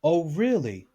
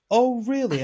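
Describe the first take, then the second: First: Said in the usual way. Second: Higher, mocking disbelief; lightly hammed incredulous reply; sarcastic mock surprise. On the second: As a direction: scoff at what she said. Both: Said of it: "and I said".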